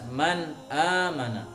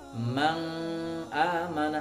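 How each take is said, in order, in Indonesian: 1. Huruf n dibaca dengan jelas, tanpa dengung. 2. Huruf n dibaca samar, seperti bunyi sengau. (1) "Tapi harus jelas" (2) "Tidak boleh juga dengan samar"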